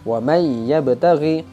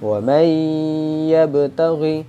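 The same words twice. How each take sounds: First: The merged sound has little nasal hum. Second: The merged sound has a long nasal hum. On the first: The speaker calls it wrong. "Itu kurang tepat karena sudah masuk tapi kurang dengung" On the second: The speaker calls it right. "Jadi cara bacanya adalah"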